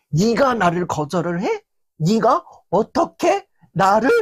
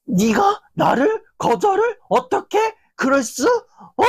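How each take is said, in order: First: Lightly acted indignation, slowing on the second question; a touch of offended disbelief; understated hurt anger, not yet shouting; mild indignant huff. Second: Much higher, outraged shriek of disbelief; mock-enraged, pitch flying up on 거절을; furious outburst. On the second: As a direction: explode at the one who refused you. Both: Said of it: "혼자서 막 씩씩거리고".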